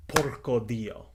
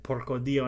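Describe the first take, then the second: First: Italian curse. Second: Said in the usual way. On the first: Retold or imitated. Exhausted Italian climber sees the rope, slow Italian curse. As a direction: drag it out like an Italian swearing in dismay. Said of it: "in Italian". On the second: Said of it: "in Italian, for those who don't know".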